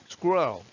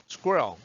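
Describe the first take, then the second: Both takes have the same delivery.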